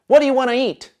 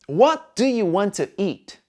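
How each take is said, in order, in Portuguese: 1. As palavras são muito reduzidas e ficam emendadas. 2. Cada palavra é pronunciada por completo e com clareza.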